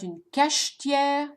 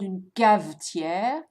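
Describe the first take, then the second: First: The middle consonant is a sh sound. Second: The middle consonant is a v sound. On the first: "it's not une cachetière" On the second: "it's not une cavetière"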